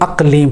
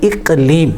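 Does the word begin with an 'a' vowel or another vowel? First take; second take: a vowel; another vowel. First: The first vowel is an 'a' sound. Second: The first vowel is not an 'a' sound. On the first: The speaker calls it wrong. "لوگ غلطی سے الف کے اوپر زبر پڑھتے ہیں" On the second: The speaker calls it right. "اصل لفظ ہے"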